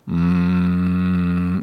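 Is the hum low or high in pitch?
low. The hum is at his usual low pitch.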